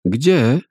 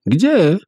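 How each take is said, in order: First: Put-on child asking. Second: Much higher, louder second ask; child asking, higher. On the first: Children ask where. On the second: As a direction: press the question again, more urgently. (jeszcze wyżej i głośniej, natarczywie) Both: A narrator's reading.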